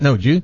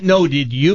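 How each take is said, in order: First: Did you is squeezed into one syllable. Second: Did you is said as two separate words. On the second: "I mean"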